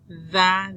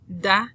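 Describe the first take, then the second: First: The d is soft, like th in them. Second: The d is a full stop sound. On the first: "Like them or that" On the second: "the first one is"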